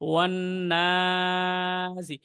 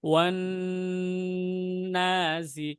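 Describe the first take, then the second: First: The stretch comes after releasing the n. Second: The n is held long before releasing it. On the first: The speaker calls it wrong. "এই টানটা কিন্তু পরে হয়ে যাচ্ছে" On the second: The speaker calls it right. "যখন ধরবো নুনটাকে, সেই অবস্থায় আমাদের দুই আলিফ টান দিতে হবে"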